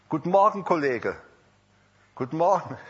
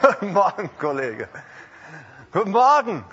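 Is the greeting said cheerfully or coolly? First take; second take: coolly; cheerfully. First: The greeting is said coolly, without warmth. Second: The greeting is said cheerfully and warmly.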